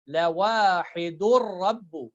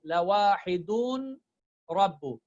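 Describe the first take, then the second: First: The n sound merges into the following r. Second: The n sound is clearly pronounced before r. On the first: The speaker calls it right. "I will directly like merge the noon into ra and then pronounce the ra" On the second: The speaker calls it wrong. "I will not pronounce like lawahidun rabbu"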